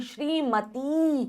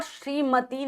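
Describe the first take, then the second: First: श्रीमती slowly, ending in a long 'tee'; slow, softer श्रीमती with held ee; long final ee. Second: श्रीमती with a short ending, 'shrimati'; short final i. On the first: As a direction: stretch the end of श्रीमती: 'shree-ma-teee'. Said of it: "बड़ी आती है". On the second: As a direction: say श्रीमती wrongly with a brief 'ti'. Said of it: "श्रीमती नहीं". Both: Shown as a demonstration.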